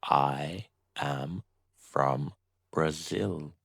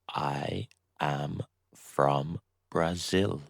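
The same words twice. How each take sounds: The two takes are said the same way.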